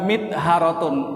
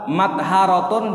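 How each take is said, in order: First: The first vowel is an 'i' sound. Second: The first vowel is an 'a' sound. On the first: "wa kasriha" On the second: "bi fathil mimi"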